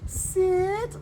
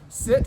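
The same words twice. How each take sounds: First: It is said in a high-pitched voice. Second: It is said in a normal conversational voice.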